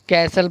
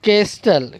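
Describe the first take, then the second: First: The t sound is not pronounced. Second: The t sound is clearly pronounced. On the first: The speaker calls it right. "टी silent है तो हम क्या पढ़ेंगे उसको कैसल" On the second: The speaker calls it wrong. "यहाँ केस्टल है"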